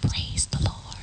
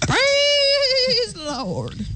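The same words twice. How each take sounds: First: It is said very quietly. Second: It is shouted loudly.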